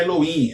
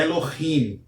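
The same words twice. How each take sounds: First: Elohim with the h dropped, as elo-IM; "Elohim" without any throaty sound before the last vowel; wrong pronunciation. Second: Elohim with a throaty h, as elo-KHIM; "Elohim" drawn out with an audible guttural h; correct pronunciation. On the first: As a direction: say "Elohim" with a silent h, vowels running together. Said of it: "Observe que não é Elohim". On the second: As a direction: say "Elohim" slowly, rasping the h before the final syllable. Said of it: "Observe que não é Elohim, é Elohim". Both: Shown as a demonstration.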